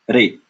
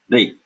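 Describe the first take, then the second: First: An r sound followed by an e-like vowel. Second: The same.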